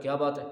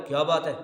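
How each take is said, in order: First: A plain questioning "کیا بات ہے"; asking a question. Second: "کیا بات ہے" snapped out much louder; angry. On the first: Preacher acting out someone asking "کیا بات ہے" as a question. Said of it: "یہ سوال ہے". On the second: Preacher showing the angry "کیا بات ہے", loud. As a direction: bark "کیا بات ہے" in anger. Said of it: "یا غصہ ہو رہا ہے". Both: Shown as a demonstration.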